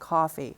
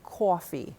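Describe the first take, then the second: First: The first vowel is plain and lower. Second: The first vowel is raised and higher. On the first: This is how it is said elsewhere. "instead of" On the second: This is how some New Yorkers say it. "the tendency to raise the vowel"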